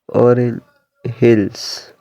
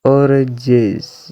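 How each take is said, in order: First: Two separate words with the h sound pronounced. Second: Linked into one word with the h dropped. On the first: "this two word orange" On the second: "pronounced like a native speaker"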